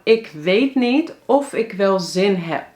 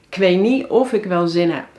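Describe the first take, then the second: First: Every word is pronounced fully and separately. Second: Even more words are shortened and run together. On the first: The speaker calls it wrong. "Maar dit zeggen we eigenlijk niet zo" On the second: The speaker calls it right. "En eigenlijk zelfs"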